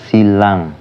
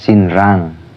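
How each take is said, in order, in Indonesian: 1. Bagian tengahnya hanya bunyi l panjang. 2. Bagian tengahnya ada n diikuti r. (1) "tapi bacanya silang" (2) "tulisannya sinrang"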